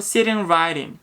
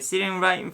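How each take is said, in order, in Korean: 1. 'right in'의 t는 빠른 플랩이에요. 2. 'right in'의 t는 glottal stop이에요. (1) "right in 이런 식으로 플랩 하셔도 되고요" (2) "glottal stop으로 빠르게"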